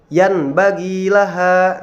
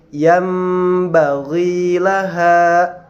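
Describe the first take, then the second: First: A plain n sound comes before the b. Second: A nasalized m sound comes before the b. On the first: The speaker calls it wrong. "tidak dibaca yanbaghi laha" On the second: The speaker calls it right. "tetapi dibaca yambaghi laha"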